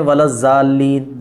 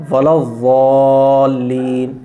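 First: ولا الضالین with a light z sound; wrong zaaleen. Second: ولا الضالین drawn out very slowly with a heavy ض; correct zuaaleen. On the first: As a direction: say الضالین with a plain z. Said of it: "تو وہ غلط ہے". (ولا الضالین ہلکی ز کے ساتھ، غلط ادائیگی) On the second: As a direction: stretch الضالین slowly, heavy ض from the tongue edge. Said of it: "ضالین میں یہی ہے". (ولا الضالین بہت آہستہ اور موٹا ض) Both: Shown as a demonstration.

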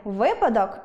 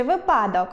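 First: Said in the usual way. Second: «випадок» stressed on the middle syllable PA; vy-PA-dok, push the second syllable of «випадок»; wrong stress. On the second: Shown as a demonstration. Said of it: "Завжди кажемо".

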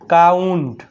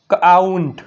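First: કાઉન્ટ joined up as one syllable; blended word. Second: કાઉન્ટ as "k-aaunt", K apart from a long AU; split sounding-out. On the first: Teacher blending for pupils, કાઉન્ટ as one joined word. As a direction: run K straight into AU in કાઉન્ટ. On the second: Teacher showing pupils the AU sound, કાઉન્ટ split as "k-aaunt". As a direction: break કાઉન્ટ after the first consonant. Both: Shown as a demonstration. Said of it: "શું થાય?".

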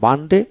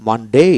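First: মানডে in British style, with a short ending; British model of মানডে, ending on plain e; British pronunciation. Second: মানডে in American style, final vowel drawn to "ey"; American model of মানডে, stretched last syllable; American pronunciation. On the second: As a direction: say মানডে as "man-dey" with a long rising end. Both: Shown as a demonstration. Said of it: "American মানডে".

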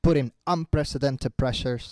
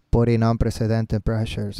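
First: Slow, measured shadowing repetition; imitating the video speaker. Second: Slow, low monotone reading; lifeless wrong way. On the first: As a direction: echo the speaker softly and slowly. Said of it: "tienes que imitar lo que él hace". (imitando al orador, lento y suave) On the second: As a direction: drone the words with no emotion. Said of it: "No, así no". (lectura monótona, lenta y grave) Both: Shown as a demonstration.

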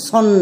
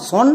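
First: "সন" with a lingering final n; drawn-out n. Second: "সন" without the drawn-out n; wrong short sound. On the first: Teacher models the slight pull, lingering "সন". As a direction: hold the n at the end of "সন". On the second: Teacher shows what not to say, short "সন". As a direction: say "সন" with no pull on the n. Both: Shown as a demonstration. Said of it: "একটু টান পড়বে".

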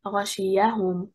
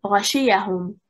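First: غشيهم with stress on the first and third syllables; correct stress. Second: غشيهم with stress on the second syllable; wrong stress on second. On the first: Teacher demonstrating the correct Quranic reading, stress on the first and third syllables. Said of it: "stressing on the first and third حركة". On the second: Teacher demonstrating the incorrect reading, stress on the second syllable. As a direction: say غشيهم leaning on the second vowel. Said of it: "If we stress on the second حركة". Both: Shown as a demonstration.

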